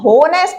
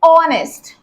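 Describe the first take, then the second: First: The word begins with an h sound. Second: The word begins directly with a vowel sound. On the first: The speaker calls it wrong. "इसको हम होनेस्ट नहीं बोलते" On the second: The speaker calls it right. "इसको बोलते हैं ऑनेस्ट"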